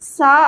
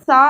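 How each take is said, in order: First: The first sound is made without the tongue between the teeth. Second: The first sound is made with the tongue between the teeth. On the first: The speaker calls it wrong. "சா அப்படின்ட்டு உச்சரிக்கக்கூடாது" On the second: The speaker calls it right. "சா அப்படின்ட்டு உச்சரிக்கணும்"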